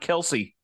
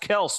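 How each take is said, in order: First: The name is said as two syllables. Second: The name is said as one syllable. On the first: The speaker calls it wrong. "not Kelsey" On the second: The speaker calls it right. "it's pronounced Kels"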